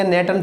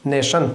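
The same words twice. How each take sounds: First: नेटन said with a plain t sound, not sh; the mistaken reading नेटन, a hard t in the middle; wrong pronunciation. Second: नेशन said with a clear sh sound in the middle; correct pronunciation. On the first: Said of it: "कुछ बच्चे इसे नेटियन पढ़ते होंगे". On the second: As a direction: give the right reading नेशन, stressing the sh. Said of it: "अरे भैया नेशन पढ़ा जाएगा". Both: Shown as a demonstration.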